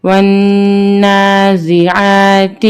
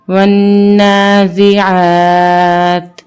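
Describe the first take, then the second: First: والنازعات recited with a short final "ti"; full ending, no pause form. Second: والنازعات with long held "aa", stopped on bare t; waqf pause form. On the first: Teacher reading on before waqf, والنازعات ending in "ti". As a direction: voice the last letter of والنازعات as "ti". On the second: Teacher showing waqf, والنازعات ending in plain "t". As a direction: stretch والنازعات, then close on silent-vowel "t". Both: Shown as a demonstration. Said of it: "وقفاً".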